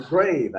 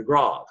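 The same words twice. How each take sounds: First: "grave" with a long AY vowel; English pronunciation. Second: "grave" with an open AH vowel; alternative pronunciation. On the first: Teacher names the accent mark, "grave" said English-style with AY. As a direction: say "grave" to rhyme with wave. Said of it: "the grave". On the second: Teacher offers the other name, "grave" said with AH. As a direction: say "grave" as grahv. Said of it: "you have the grave accent". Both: Shown as a demonstration.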